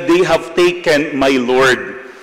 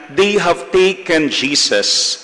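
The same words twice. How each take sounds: First: "They have taken my Lord" slower, weight on "my Lord"; stress on my Lord. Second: Said in the usual way. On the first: Shown as a demonstration. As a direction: draw out "my Lord" against "Jesus". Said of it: "Ang sabi niya". (mabagal, diin sa "my Lord") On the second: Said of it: "Hindi niya sinabi na".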